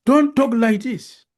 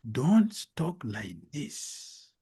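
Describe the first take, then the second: First: Loud, high, slow reprimand; forceful rebuke. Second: Slow, softer warning; measured and drawn out, held back; restrained rebuke. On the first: King rebuking the devotee, loud and forceful. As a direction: raise the voice and stress each word. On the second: King warning the devotee, slow and restrained. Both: Acted.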